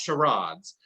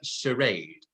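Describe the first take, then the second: First: It is said with a British pronunciation. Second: It is said with an American pronunciation. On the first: "In Britain, it's pronounced charades" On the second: "In America, charade"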